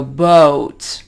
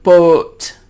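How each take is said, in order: First: Boat with the O moving upward towards oo; American boat, a diphthong O closing to oo; American gliding O. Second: Boat with the O held in one place; long boat without any glide in the O; wrong steady vowel. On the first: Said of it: "they move the O upward". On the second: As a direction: hold a pure, unmoving O in boat. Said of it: "We don't hold the O in one place". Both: Shown as a demonstration.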